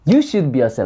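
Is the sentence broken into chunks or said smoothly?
smooth. The sentence is said smoothly in one go. "이걸 붙여볼까요?"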